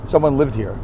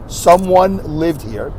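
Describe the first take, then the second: First: "Someone Lived Here" softer, with a falling end on "Someone"; softer falling try. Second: "Someone Lived Here" slowly, with stress on Someone and a rising end; drawn out, rising on "Someone"; slow stress test. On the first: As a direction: let "Someone" drop off quietly. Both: Shown as a demonstration. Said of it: "the way you say it".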